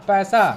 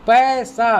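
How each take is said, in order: First: Said in the usual way. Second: पैसा spelled out slowly, each syllable separate. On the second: Shown as a demonstration. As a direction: sound out पैसा piece by piece for the class. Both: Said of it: "अब यहाँ पढ़ना सीखेंगे हम".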